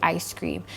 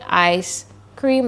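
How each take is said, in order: First: The words are said fast and blended together. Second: The words are said slowly and separately. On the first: "ask the child to say it fast" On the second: "like you did"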